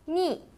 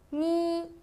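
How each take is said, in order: First: The pitch falls sharply from high to low. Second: The pitch stays high and level.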